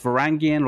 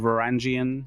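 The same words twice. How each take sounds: First: The middle consonant is a hard g sound. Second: The middle consonant is a soft j sound. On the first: "it could be a a g" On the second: "or a j sound"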